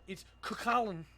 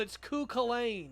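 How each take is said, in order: First: The name is said the Irish way. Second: The name is said the common English way. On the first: This is the pronunciation from the name's own language. The speaker calls it right. "no, it's not. It's Kukulkan" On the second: Others claim this is the right way to say it. The speaker calls it wrong. "people tell me I'm saying Kukulkan wrong. And they go, well, it's Kukulkan"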